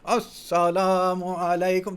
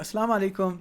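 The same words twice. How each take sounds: First: It is said as a stiff, formal chorus. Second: It is said in a casual, natural way.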